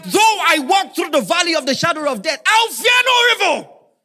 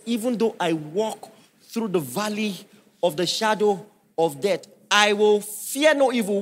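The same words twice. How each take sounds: First: Much higher and louder preached shout; full-force preacher shout of scripture; shouted psalm. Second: Psalm recited in a measured preaching voice; reciting Psalm twenty-three; scripture recitation. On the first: Real, not acted. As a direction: cry the verse out with full force. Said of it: "psalm shouted again". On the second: Shown as a demonstration. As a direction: read it as holy verse. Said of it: "the Bible says".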